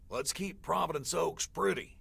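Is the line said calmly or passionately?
calmly. It is said calmly, without much passion.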